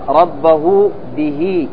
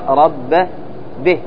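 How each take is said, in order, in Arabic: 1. تأتي بعد الهاء حركة طويلة. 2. تنتهي الهاء دون حركة طويلة. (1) "في الوصل تقرأ" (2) "وفي الوقف تقرأ"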